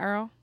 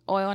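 First: The word is said like 'earl'. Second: The word is said with a standard 'oy' vowel. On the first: The speaker calls it wrong. "not Earl" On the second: The speaker calls it right. "Oil, not Earl"

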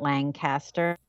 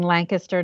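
First: It is said the way outsiders say it. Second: It is said the local central Pennsylvania way. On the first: This is how people from elsewhere say it. "not Lancaster" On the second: This is how people from the area say it. "I'm saying Lancaster ... because that's how we say it in these parts of central PA"

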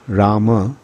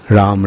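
First: The name has two syllables, ending in a vowel. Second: The name has one syllable, ending in 'm'. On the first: This is the general form of the name. "Generally, the word is Rama" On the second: This form is used when addressing. "it is sometimes pronounced as Ram"

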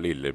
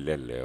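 First: The first vowel is a plain i sound. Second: The first vowel sounds like an e.

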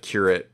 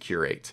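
First: It is pronounced the way the noun is. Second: It is pronounced the way the verb is. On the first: It names a church role. "the pronunciation of curate is the noun" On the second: It means to select and arrange. "if you're referring to the verb, you say to curate something"

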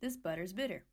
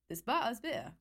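First: Each T is pronounced clearly and fully. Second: Each T is replaced by a glottal stop. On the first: "if I stress out the T in every word without a glottal stop" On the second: "if I make the T glottal"

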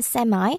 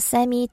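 First: The word ends with an 'eye' sound. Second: The word ends with an 'ee' sound. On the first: This is the form more common in American English. "미국식 영어에서는 세마이라고 좀 더 많이 하고요" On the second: This is the form more common in British English. "영국식 영어에서는 세미라고 더 많이 발음합니다"

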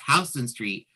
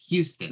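First: The first syllable sounds like 'how'. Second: The first syllable sounds like 'hyoo'. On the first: This is the New York street. "they don't pronounce Houston Street correctly, because that's Houston Street" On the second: This is the city in Texas. "But in Texas, it's Houston"

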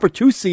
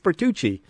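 First: The ending is not pronounced 'chee'. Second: The ending is pronounced 'chee'. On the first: The speaker calls it wrong. "It's not Bertucci" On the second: The speaker calls it right. "It's Bertucci. ... CCI right. is Chi"

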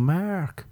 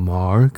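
First: The voice arches up over the name. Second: The voice dips low on the name. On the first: "I like to go over the bridge. Up and over" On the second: "You like to go down low. You like to go under the bridge"

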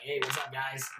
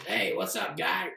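First: The character voice is pitched lower. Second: The character voice is pitched higher.

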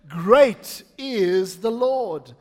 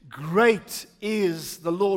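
First: It is said with more passion and energy. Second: It is said plainly with modest energy.

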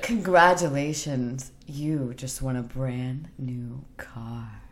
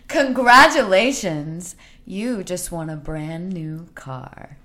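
First: It is said in a sexy, seductive way. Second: It is said like a talk show host.

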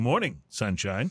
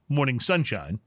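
First: A slight break separates the words, like a greeting. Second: The two words run together as one name.

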